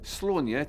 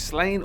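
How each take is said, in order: First: The name is said with an Irish pronunciation. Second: The name is said with an anglicized pronunciation.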